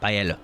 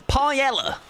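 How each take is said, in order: First: Paella said as pie-ELL-oh with a hard P; mispronounced paella. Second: Paella as pie-ELL-uh, higher and proudly English; mock-proud English paella, pie-ELL-uh; British paella. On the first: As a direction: paella fumbled the English way, pie-EL-oh. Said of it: "I'm gonna pronounce this really wrong". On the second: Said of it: "or as us Brits say". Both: Shown as a demonstration.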